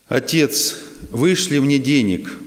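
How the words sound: It is said in a harsh, commanding tone. The son seems to be ordering his father. "Он читает в такой повелительной форме"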